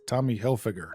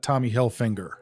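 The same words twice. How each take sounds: First: No n sound comes before the g. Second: An n sound comes before the g. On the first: The speaker calls it right. "Not there's no N" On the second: The speaker calls it wrong. "It's not Tommy Hilfiger"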